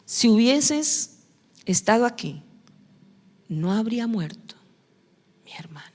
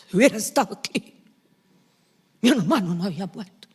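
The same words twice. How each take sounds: First: Mary's grief. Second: Quick, brisk complaint; Martha's reproach. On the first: Preacher voicing Mary grieving at Jesus' feet, fading whisper. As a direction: let it sink away into a hushed sob-like breath. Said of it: "¿Le dijo lo mismo?". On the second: Preacher voicing Martha rushing at Jesus, brisk. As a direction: rattle it off a little impatiently. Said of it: "¿Cómo le habló la otra?". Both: Retold or imitated.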